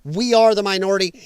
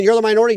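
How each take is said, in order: First: ARE pressed firm, rest of We are the minority level; are held slightly, then fall on minority; stress on ARE. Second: Mild mock yell with the weight on You're; a touch of a shouted accusation. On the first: Shown as a demonstration. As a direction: lean hard on the word are to correct them. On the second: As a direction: throw You're out like a taunt being shouted. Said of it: "While you're out there screaming".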